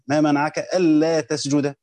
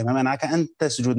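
First: Slow, leaning on ألا with a long doubled lam; stress on ألا. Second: Said in the usual way. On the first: Shown as a demonstration. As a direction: dwell on ألا, drawn out. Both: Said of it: "فهنا اللا زائدة".

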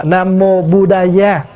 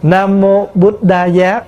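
First: Buddha Giá slowly, as "bu-da-ya"; Sanskrit recitation. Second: Buddha Giá slowly, as "but-da-ya"; Sanskrit recitation. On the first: Monk offers another reading, slow open-syllable Sanskrit pronunciation. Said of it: "hay là Nam mô Buddha". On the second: Monk demonstrates a reading for listeners, slow Sanskrit pronunciation. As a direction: close the first syllable of Buddha with a t. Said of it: "Ví dụ quý vị đọc nè". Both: Shown as a demonstration.

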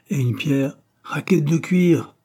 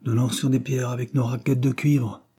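First: "raquette de cuivre" repeated high and slow in disapproval; reproving interruption. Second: Said in the usual way. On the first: A narrator's reading. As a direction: pick out "raquette de cuivre" slowly, a lot higher, scolding. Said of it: "interrompit l'institutrice". (l'institutrice reprend « raquette de cuivre » lentement, plus aigu, désapprobatrice) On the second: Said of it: "expliqua Georges".

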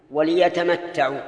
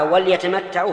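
First: Slow "وليتمتعوا" as wa-li-yatamatta'u; lam with kasra. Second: "وليتمتعوا" misread as wal-yatamatta'u; mistaken vowelless lam. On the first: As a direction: give the l in "وليتمتعوا" a clear i vowel. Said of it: "تكون مكسورة بكل حال". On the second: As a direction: drop the i after l in "وليتمتعوا". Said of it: "فقد أخطأ". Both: Shown as a demonstration.

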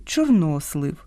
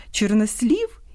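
First: «чорнослив» stressed on the middle syllable, НО; Ukrainian stress. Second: «чорнослів» stressed on the last syllable, СЛІВ; Russian stress. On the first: Host giving the Ukrainian noun, middle stress. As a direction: land on НО in «чорнослив». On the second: Host contrasting similar nouns, Russian final stress. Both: Shown as a demonstration. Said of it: "По-різному слід наголошувати".

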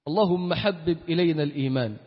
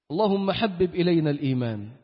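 No difference in how they are said.

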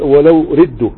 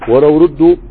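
First: ولو ردوا with kasra on ردوا, falling; corrected reading. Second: ردوا said louder, rising on ردوا; first reading. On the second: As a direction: try ولو ردوا with a rising ردوا. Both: Shown as a demonstration. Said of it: "آه، هنا لا".

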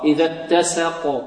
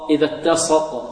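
First: "اتسق" with a thin s and fronted vowel; correct light sin. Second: "اتسق" with s thickened to sad; wrong heavy sin. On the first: Teacher corrects the error, light sin in "اتسق". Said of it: "كذلك نرقق السين". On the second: Teacher demonstrates the error, heavy sin in "اتسق". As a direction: darken the sin in "إذا اتسق". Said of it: "خطأ". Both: Shown as a demonstration.

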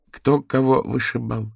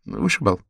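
First: Puzzled question. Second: Said in the usual way. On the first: Acted. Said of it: "не поняла Дейзи".

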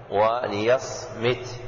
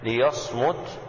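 First: "وليصمت" drawn out slowly as wa-li-yasmit, i after the mim; kasra on the mim. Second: "ليصمت" pronounced li-yasmut, u after the mim; damma on the mim. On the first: Teacher showing the second valid reading, "وليصمت" slowly as wa-li-yasmit. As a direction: slowly give "وليصمت" an i vowel, yas-mit. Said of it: "وسمع كسرها أيضًا". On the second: Teacher showing the first valid reading, "ليصمت" as li-yasmut. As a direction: give "ليصمت" its u vowel, li-yasmut. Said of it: "بضم الميم". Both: Shown as a demonstration.

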